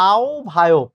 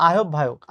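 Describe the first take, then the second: First: "আহ্বায়ক" as au-bhayok; correct pronunciation. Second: "আহ্বায়ক" as a-hob-bhayok; wrong pronunciation. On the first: Teacher correcting students, "আহ্বায়ক" said as au-bhayok. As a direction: glide the opening of "আহ্বায়ক" into au, then bhayok. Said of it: "এটার উচ্চারণ হচ্ছে". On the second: Teacher ruling out the error, "আহ্বায়ক" as a-hob-bhayok. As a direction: say "আহ্বায়ক" the mistaken way, without au. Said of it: "not আহ্বায়ক". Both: Shown as a demonstration.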